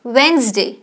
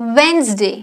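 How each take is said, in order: The two takes are said the same way.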